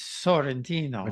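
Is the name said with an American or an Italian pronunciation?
Italian. The name is said with melodic Italian vowels. The speaker calls it right. "it's Sorrentino"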